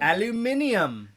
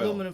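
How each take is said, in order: First: It has five syllables, ending in -nium. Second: It has four syllables, ending in -num. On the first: "And what do the British call it?" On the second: "In the United States, we would call it"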